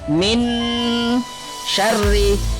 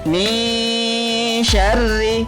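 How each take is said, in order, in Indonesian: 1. Huruf n diucapkan dengan jelas tanpa dengung. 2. Huruf n disamarkan dengan dengung sengau yang ditahan. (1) "bukan min syarri. Salah" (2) "samar dengan dengung dan ditahan selama tiga harakat"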